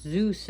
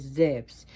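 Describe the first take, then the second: First: Zeus said "zoos", with a long oo; Zeus as plain English "zooss"; American pronunciation. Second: Zeus said "zefs", with a short e; Zeus the Greek way, as "zevs"; Greek pronunciation. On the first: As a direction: say Zeus the American way, rhyming with "loose". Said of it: "pronounced Zeus in America". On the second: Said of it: "but in Greek is Zeus". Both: Shown as a demonstration.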